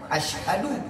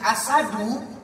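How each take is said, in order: First: It has an 'sh' sound followed by 'h'. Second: It has a plain 's' sound, no 'h'. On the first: I bear witness. The speaker calls it right. "ini tepat" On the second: Lion. The speaker calls it wrong. "kalau dibacanya menjadi asadu"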